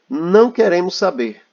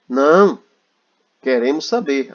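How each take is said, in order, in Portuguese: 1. Diz-se sem pausa depois de 'não'. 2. Há uma pausa logo depois de 'não'.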